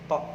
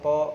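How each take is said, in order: First: The lips stay relaxed, not pushed forward. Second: The lips are pushed forward and rounded. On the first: Pushing the lips forward is unnecessary. "Kalau misalkan saya monyong mah nggak usah" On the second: Some people read it this way. "ada kadang yang yang bacanya monyong to kayak gitu"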